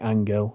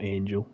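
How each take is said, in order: First: The name is said with a Spanish pronunciation. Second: The name is said with an English pronunciation. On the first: The speaker calls it right. "It's probably Angel" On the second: The speaker calls it wrong. "I'm sure it's not Angel if you speak Spanish"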